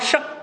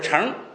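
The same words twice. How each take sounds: First: The syllable does not have a rising tone. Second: The syllable has a rising second tone. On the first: It is the noun for a four-horse chariot. "那个名词就叫乘" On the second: It is the verb meaning to ride. "动词就是乘"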